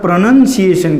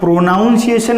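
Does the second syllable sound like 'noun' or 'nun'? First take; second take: nun; noun. First: The second syllable has a short vowel, like 'nun'. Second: The second syllable has an 'ow' vowel, like 'noun'. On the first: The speaker calls it right. "આને પ્રનન્સિએશન કહેવાય" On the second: The speaker calls it wrong. "આને પ્રોનાઉન્સિએશન ના કહેવાય"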